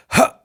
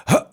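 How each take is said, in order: First: Fully released, slack huh; collapsed huh. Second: Tight held huh; squeezed huh. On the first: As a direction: let the breath collapse on huh. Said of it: "If I let go completely". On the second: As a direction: clamp the breath on huh. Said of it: "it's too squeezed". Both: Shown as a demonstration.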